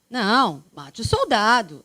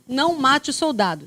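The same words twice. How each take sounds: First: It is said with a pause after não. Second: It is said without a pause after não.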